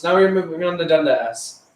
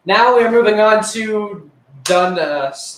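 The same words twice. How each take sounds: First: Said in the usual way. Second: Higher, slow announcer voice. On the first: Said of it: "repeat in usual voice". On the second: Acted. Boy announcing the next chapter of his stories, slow show-host voice. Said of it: "announcing next chapter".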